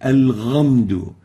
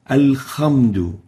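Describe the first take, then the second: First: The second consonant is a voiced gargled gh. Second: The second consonant is a rasping kh. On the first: "or with a ghain" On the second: "pronounce the ha with a kha"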